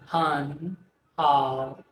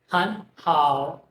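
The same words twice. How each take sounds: First: The first syllable carries its original tone. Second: The first syllable carries the changed tone. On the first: "from han how" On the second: "It becomes han how"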